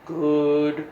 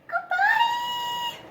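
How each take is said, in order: First: It is said in a deep voice. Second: It is said in a squeaky voice.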